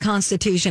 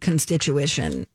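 First: The word is said with its standard syllables. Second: The word is said with an extra vowel sound. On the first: The speaker calls it right. "I once mispronounced Constitution" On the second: The speaker calls it wrong. "and said constituition"

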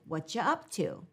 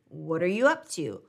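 First: The word 'are' is dropped from the phrase. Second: The word 'are' is heard in the phrase. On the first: "some people say this as" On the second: "listen for"

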